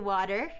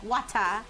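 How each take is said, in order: First: It is said with a plain American accent. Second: It is said with an African accent.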